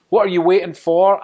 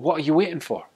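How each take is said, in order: First: It is a real question, stressing what. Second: It is an impatient push to act now.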